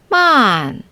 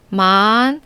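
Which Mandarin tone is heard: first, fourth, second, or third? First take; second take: fourth; second. First: The pitch falls sharply from high to low. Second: The pitch rises from mid to high.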